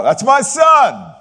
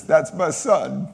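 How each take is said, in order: First: High, loud, drawn-out cheer; proud shout from the stands. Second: Fond declaration. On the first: Father cheering his athlete son from the stands, loud and proud. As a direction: yell it out like a proud dad at a game. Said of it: "they would hear me cry out". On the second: God speaking to Jesus, slow tender pride. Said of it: "that's what God is saying here to Jesus". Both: Retold or imitated.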